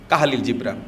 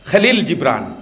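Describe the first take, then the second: First: The name starts with two syllables, ka-ha. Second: The name starts with one aspirated kha syllable. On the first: The speaker calls it wrong. "Bangla সাহিত্যেও লেখে কাহালিল জিব্রান" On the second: The speaker calls it right. "আরবিতে যেটা খ"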